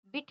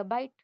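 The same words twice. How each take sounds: First: बिट with a short clipped "i"; short i in bit. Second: बाइट with a gliding "eye" sound; long i in bite. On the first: Teacher contrasting bit with bite, short vowel. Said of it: "बीआईटी बिट है". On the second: Teacher showing magic e turning bit into bite, long vowel. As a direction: open बाइट into "byte". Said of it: "एंड में ई आया है". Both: Shown as a demonstration.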